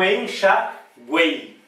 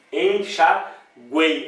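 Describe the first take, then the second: First: Said in the usual way. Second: Enxaguei drawn out very slowly, each syllable clear; slow syllable demo. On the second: Shown as a demonstration. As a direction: stretch enxaguei out so the E stands out. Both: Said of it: "olha como o E aparece mais".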